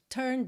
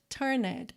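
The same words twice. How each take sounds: First: The n goes straight into the d. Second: The ending is said with an extra vowel sound. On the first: The speaker calls it right. "Não tem o som da letra E. Do N já vai direto pro D" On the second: The speaker calls it wrong. "você vai ter aí a vontadezinha de falar turned, mas não é assim que a gente pronuncia"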